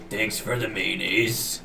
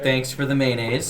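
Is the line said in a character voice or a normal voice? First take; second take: character voice; normal voice. First: It is said in a put-on character voice. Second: It is said in the speaker's ordinary voice.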